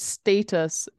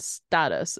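First: It is said with a British accent. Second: It is said with an American accent.

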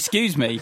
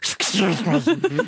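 First: It is said clearly, in a plain voice. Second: It is mumbled, as if through false teeth.

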